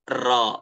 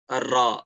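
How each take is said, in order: No difference in how they are said.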